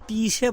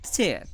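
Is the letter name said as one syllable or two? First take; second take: two; one. First: It is split into two syllables. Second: It is said as one syllable. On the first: The speaker calls it wrong. "যদি এটার উচ্চারণ তিসে বলে তাহলে উচ্চারণটা ভুল হবে" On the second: The speaker calls it right. "উচ্চারণটা ছে"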